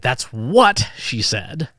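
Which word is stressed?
what. The emphasis falls on the word what. It was this thing, not a reason. "not why"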